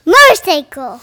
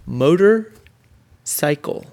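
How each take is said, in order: First: Motorcycle blended into one quick loud word; a child saying motorcycle quickly to show his reading game; said fast. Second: Motorcycle stretched out very slowly, syllable by syllable; a parent sounding out motorcycle slowly for a child; said slowly in parts. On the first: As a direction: blurt motorcycle out fast and whole. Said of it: "Say it fast". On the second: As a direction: break motorcycle into slow separate chunks. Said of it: "Say it slow / Say it fast". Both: Shown as a demonstration.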